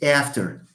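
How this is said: It is said with an American vowel. "In American English, it's after"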